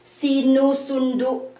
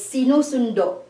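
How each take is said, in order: First: Sinusundo with the last vowel said as U, like sinusundu; the rejected form, sinusundo ending in U; wrong Filipino pronunciation. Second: Sinusundo, final vowel a plain O, not U; correct Filipino pronunciation. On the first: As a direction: sinusundo ending in a U sound instead of a clear O. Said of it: "So we don't say". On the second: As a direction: say sinusundo with a rounded O at the end. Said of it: "It's sinusundo". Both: Shown as a demonstration.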